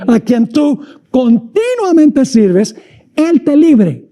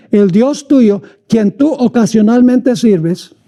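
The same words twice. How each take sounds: First: Slow, weighty "continuamente" with each syllable leaned on; corrected emphasis. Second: Slowed, joking wrong reading of ocasionalmente; deliberate misquote. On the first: Preacher correcting his joke for the congregation, slow stressed "continuamente". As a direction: land hard on "continuamente" as the true word. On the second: Preacher teasing the congregation with a wrong word, slow mock reading. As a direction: misread "ocasionalmente" slowly on purpose, tongue in cheek. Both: Shown as a demonstration. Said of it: "eso, no, eso no dice".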